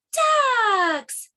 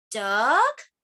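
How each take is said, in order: First: DUCKS high, loud and drawn out, falling; excited exclamation. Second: DUCK drawn out with a rising question tune. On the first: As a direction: cry "Ducks!" as a long delighted discovery. The ducks are finally found. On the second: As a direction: ask "Duck?", sliding up at the end. Book guesses at each bird. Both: Acted.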